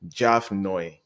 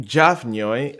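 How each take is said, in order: First: "Jav Nyoy" said as "Jav Noy", no y-glide; simplified pronunciation. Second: Jav Nyoy with a gliding "ny" before "oy"; native pronunciation. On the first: Guest teaching outsiders to say his name, simplified pronunciation. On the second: Guest giving his own name to the host, native pronunciation. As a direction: say "Jav Nyoy" keeping the y-glide after N. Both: Shown as a demonstration. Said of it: "the N Y U Y as N U I".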